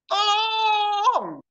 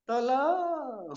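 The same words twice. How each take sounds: First: Tolong! shouted very high and loud; desperate cry for help. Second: Sung-out call for help. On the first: Preacher showing how a real plea for help sounds, screamed high. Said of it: "Tapi kalau orang minta tolong gimana?". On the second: Preacher demonstrating a weak, sung plea for help. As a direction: croon Tolong like a melody, not a real plea. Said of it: "Dia bukan minta tolong, dia nyanyi". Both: Shown as a demonstration.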